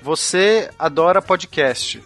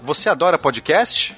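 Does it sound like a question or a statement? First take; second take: statement; question. First: It is said with statement intonation. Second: It is said with question intonation.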